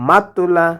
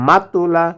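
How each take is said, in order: Both takes have the same delivery.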